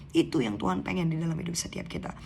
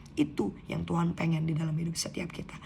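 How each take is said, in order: The two takes are said the same way.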